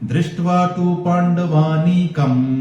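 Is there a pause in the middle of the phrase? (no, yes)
no. The phrase flows without any pause midway. The speaker calls it right. "ये एक साथ बोलना होगा। ... ये सुर है"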